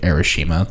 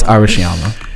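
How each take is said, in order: First: The name is said without a 'ya' syllable. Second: The name is said with a 'ya' syllable. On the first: The speaker calls it wrong. "I called it Arashima the entire time" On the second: The speaker calls it right. "It's Arashiyama"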